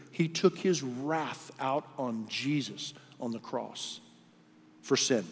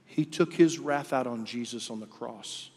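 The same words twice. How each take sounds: First: Slow, weighty restatement. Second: Said in the usual way. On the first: Shown as a demonstration. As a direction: repeat it slowly for weight. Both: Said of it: "Read the Scripture".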